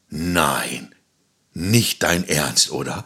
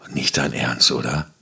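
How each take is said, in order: First: It sounds delighted and positive. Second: It sounds annoyed and negative.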